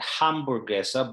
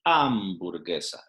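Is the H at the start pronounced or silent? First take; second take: pronounced; silent. First: The word starts with an audible H sound. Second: The word starts with no H sound. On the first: The speaker calls it wrong. "it's not hamburguesa" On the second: The speaker calls it right. "but hamburguesa. It's totally silent"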